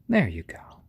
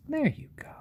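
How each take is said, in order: First: Hushed There you go; whispered. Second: There you go squeaked very high; cooing. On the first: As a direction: whisper it gently to the chick. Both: Real, not acted. Settling the chick down.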